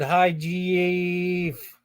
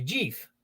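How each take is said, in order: First: Jeef stretched out long as two syllables, jee-eef; mispronounced name. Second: Said in the usual way. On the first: Retold or imitated. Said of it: "'Cause you said". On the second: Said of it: "it's supposed to be".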